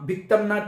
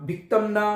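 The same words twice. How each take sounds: First: It ends in 'm' then a separate 'na'. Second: It ends in 'm' then a separate 'na'.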